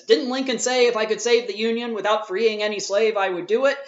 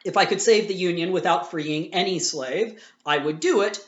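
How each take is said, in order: First: Raised, louder mock challenge of the other debater; quoting the opponent. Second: Said in the usual way. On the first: Teacher mimics the debater misquoting Lincoln, mock challenge. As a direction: throw the quote back as a gotcha, higher and louder. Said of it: "So the person says". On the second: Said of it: "I have it here".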